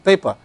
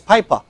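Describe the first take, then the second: First: It is said with a British accent. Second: It is said with an Australian accent.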